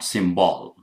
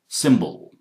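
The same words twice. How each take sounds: First: The second vowel is a full vowel. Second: The second vowel is a short weak schwa. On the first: The speaker calls it wrong. "not symbol" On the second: The speaker calls it right. "This is so short that you barely hear it"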